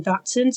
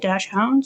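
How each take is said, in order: First: The first syllable sounds like 'dacks'. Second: The first syllable sounds like 'dash'. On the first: "I say Dachshund" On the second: "I guess dash hound is also correct"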